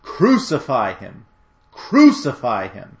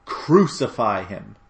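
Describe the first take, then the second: First: Slow, forceful cry of an angry crowd; crying out louder. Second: Slow, drawn-out cry of a crowd; mildly raised, stretched-out call. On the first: Crowd demanding death from Pilate, crying out louder. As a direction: punch each cry harder, drawn out. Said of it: "They cried out all the louder". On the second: Crowd answering Pilate, crying out with restraint. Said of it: "They all cried out". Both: A narrator's reading.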